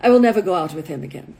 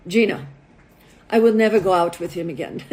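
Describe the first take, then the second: First: Put-on low, quick Russian-accented refusal. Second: Put-on low, firm refusal in a Russian accent. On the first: Russian model repeats her refusal to matchmaker, Russian accent. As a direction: say it firmly as a Russian, faster. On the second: Russian model rejecting a date to her matchmaker, Russian accent. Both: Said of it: "This is my best Russian accent".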